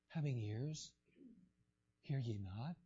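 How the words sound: The question is said in a mild, calm tone. Jesus asked gently, without frustration. "I know one person may say, well, He was very"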